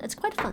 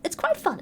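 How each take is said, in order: First: "It's quite fun." repeated lower and much softer; softer lower echo. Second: Said in the usual way. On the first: Shown as a demonstration. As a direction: drop it to a quiet aside.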